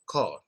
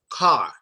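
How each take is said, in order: First: The vowel is said without dropping the jaw. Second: The vowel is said with the jaw dropped open. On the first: The speaker calls it wrong. "instead of saying it like I say it, they may say car" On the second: The speaker calls it right. "you typically have to drop your jaw"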